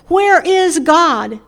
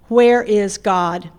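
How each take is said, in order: First: It is said loudly with a raised voice. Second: It is said sternly at a moderate volume.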